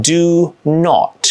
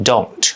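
First: Said in the usual way. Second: "don't" as one syllable; contracted don't. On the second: Shown as a demonstration. Teacher demoing the linked sound. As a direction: fold "do not" into "don't". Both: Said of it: "กลายเป็น".

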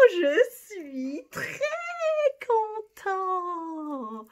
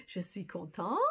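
First: Higher and louder, slow proud très content; delighted. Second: Said in the usual way. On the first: Shown as a demonstration. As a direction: beam out je suis très content. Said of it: "very pleased with yourself". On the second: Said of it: "if you're pleased".

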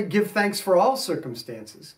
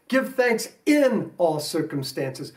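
First: "for" said lightly, stress falls on "all"; the wrong wording. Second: "in" slow and leaned on, not "for"; stress on in. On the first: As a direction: set up the misquote with stress on "all". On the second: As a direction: press the word "in" in all circumstances. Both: Shown as a demonstration. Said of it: "Notice it doesn't say".

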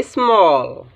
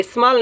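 First: "स्मॉल" with a long rounded aw; correct pronunciation. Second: "स्मॉल" said as "ismaal", open aa; wrong pronunciation. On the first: Teacher gives the right reading, "स्मॉल" with long aw. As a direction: draw out "स्मॉल" with a rounded vowel. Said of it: "इसको हम पढ़ेंगे". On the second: Teacher shows what not to read, "स्मॉल" with open aa. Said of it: "नहीं पढ़ेंगे". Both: Shown as a demonstration.

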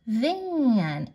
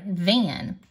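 First: "van." drawn out slowly through the vowel; stretched word. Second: Said in the usual way. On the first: Shown as a demonstration. Teacher sounding out van, word drawn out slowly. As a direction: stretch the middle of "van." long. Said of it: "say the word really slowly".

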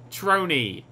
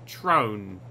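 First: "Troney" in two syllables, ending in an ee sound; E pronounced. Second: "Trone" as one low syllable, rhyming with drone; silent E. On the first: Player trying his tag name, "Troney" with an ee ending. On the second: Player trying his tag name, low one-syllable "Trone". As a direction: drop the E and state "Trone" low. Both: Shown as a demonstration. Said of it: "Do you pronounce the E?".

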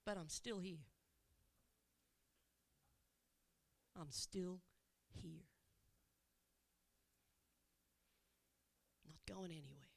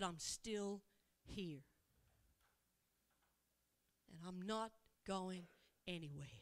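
First: Much softer and lower, fading to a hush; hushed reassurance. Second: Soft reassurance. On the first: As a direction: promise softly as the voice falls away. Repeats Jesus promise, fading. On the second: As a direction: quietly promise to stay. Jesus repeats promise softly. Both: Acted.

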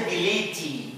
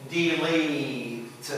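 First: Delete as "de-LEE-tee"; three-syllable delete, ending in ee; final E pronounced. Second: Delete drawn out slowly, ending on t; very slow delete with no vowel after the t; silent final E. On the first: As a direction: wrongly add an ee after the t in delete. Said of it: "We don't say". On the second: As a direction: stretch delete as "dee-leeet". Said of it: "silent, like in". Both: Shown as a demonstration.

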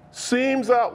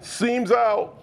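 First: Ace Ventura quote. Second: Quoting Ace Ventura. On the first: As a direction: quote it like the movie line. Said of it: "it's from Ace Ventura". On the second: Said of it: "What's that from". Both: Retold or imitated.

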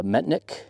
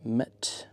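First: Said in the usual way. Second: Metnick split in two, quietly, with a gap; typing along. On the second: Real, not acted. Radio operator typing in Metnick, sounding it out slowly to himself. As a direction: say Metnick softly in two separate pieces, Met, Nick. Spelling out word while typing.

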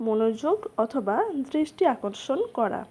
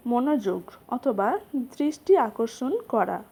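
The two takes are said the same way.

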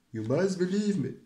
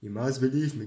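First: Higher, louder mock Trump; a hint of a Donald Trump impression. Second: Said in the usual way. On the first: Shown as a demonstration. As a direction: pump it up like a rally speech. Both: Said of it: "how to do Donald Trump voices".

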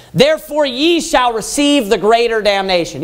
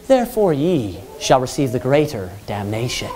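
First: Preached declaration. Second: Softer, lower, meek mumbled reading; limp, half-hearted preaching; mock timid reading. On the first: Shown as a demonstration. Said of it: "put an exclamation point there". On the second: Preacher mocking a timid reading of damnation, meek and soft. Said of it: "Do you think that that's how he's preaching?".

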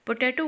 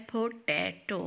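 First: Said in the usual way. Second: "potato" in three separate sounds; split into syllables. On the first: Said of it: "word बोलने के लिए". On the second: Shown as a demonstration. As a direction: break "potato" into po, ta, to. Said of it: "three sounds अदा करनी पड़ी". ("Potato" तीन टुकड़ों में अलग-अलग)

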